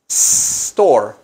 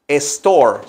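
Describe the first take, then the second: First: The word begins with a clear s sound. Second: The word lacks a clear initial s sound. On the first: The speaker calls it right. "pronunciar esa palabra con una letra S" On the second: The speaker calls it wrong. "para que no se oiga store"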